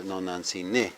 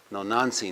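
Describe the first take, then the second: First: No Nancy ne as a call, final NE stressed; stress on last syllable. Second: No Nancy with the weight on NAN; stress second-last syllable. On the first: Teacher showing how to address mother, stress on last syllable. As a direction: hold and hit the NE at the end of no Nancy ne. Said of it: "That's when you talk to someone". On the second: Teacher giving the word for my mother, stress second-last syllable. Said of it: "is on the second from the last syllable". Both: Shown as a demonstration.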